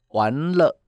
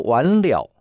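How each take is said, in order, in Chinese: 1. 第二个音节是轻声的、没有声调的'le'。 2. 第二个音节是完整的'liao'。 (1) "完蛋了，糟糕了" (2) "那是一个完成"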